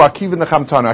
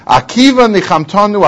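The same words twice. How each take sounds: First: Soft echo. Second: Said in the usual way. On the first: Shown as a demonstration. Rabbis comforted by Akiva, a softer echo. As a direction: repeat it softer, as a hushed echo.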